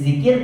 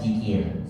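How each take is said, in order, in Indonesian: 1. Kata ini diawali dengan bunyi z. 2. Kata ini diawali dengan bunyi j. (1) "zikir dibaca jikir" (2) "dibaca jikir. Salah"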